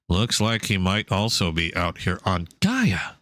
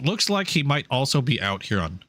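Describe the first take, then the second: First: It is read in a robotic AI voice. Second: It is read in his natural voice.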